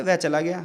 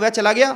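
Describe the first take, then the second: First: Said in the usual way. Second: "वह चला गया" said louder as a question, rising on "गया"; asking tune. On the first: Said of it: "एक general वाक्य". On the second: Shown as a demonstration. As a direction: turn "वह चला गया" into a question with a rise at the end of "गया". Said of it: "मैंने question पूछा है". (प्रश्न के लहजे में, "गया" पर आवाज़ ऊपर उठाते हुए)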